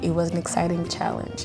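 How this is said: It is said with an American-like English accent. "a bit like with an American accent maybe"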